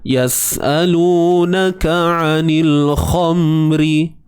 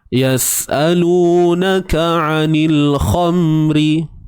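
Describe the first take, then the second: No difference in how they are said.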